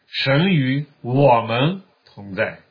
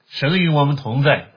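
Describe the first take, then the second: First: The word 我们 carries the main stress. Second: The words are said evenly, with no special stress.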